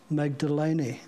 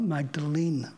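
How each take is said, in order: First: Magdalene is said the less common way. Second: Magdalene is said the usual common way. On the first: The speaker calls it right. "it is pronounced Magdalene" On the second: The speaker calls it wrong. "not Magdalene, as commonly said"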